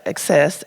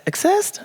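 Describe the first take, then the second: First: Said in the usual way. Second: "accessed" with a high rising end; questioning "accessed". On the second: Real, not acted. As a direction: doubt the word "accessed", pitch leaping upward. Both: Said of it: "did I say that right?".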